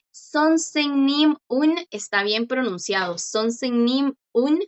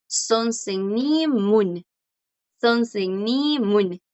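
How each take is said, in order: First: Sonsennim un with a clear pause before un; paused between words. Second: Sonsennimun run together, slow; linked pronunciation. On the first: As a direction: split sonsennim and un apart. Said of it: "haciendo una pausa aquí". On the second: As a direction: join sonsennim and un smoothly. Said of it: "lo más común es que los coreanos pronuncien esto". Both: Shown as a demonstration.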